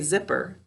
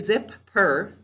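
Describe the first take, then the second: First: The word flows together with one p sound. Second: Each syllable is said separately, both p sounds heard. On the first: The speaker calls it right. "I just say zipper" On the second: The speaker calls it wrong. "I don't say zip per"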